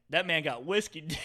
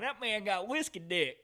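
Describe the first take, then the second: First: Raised-pitch, louder imitation of a buddy; mildly loud mock confiding; retold loud remark. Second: High, slow country drawl; hammed-up country twang, slowed down; country accent. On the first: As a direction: imitate a friend's too-loud aside. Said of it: "he said it really loud". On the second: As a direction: imitate a country buddy, drawn out and high. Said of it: "Gavin's pretty country".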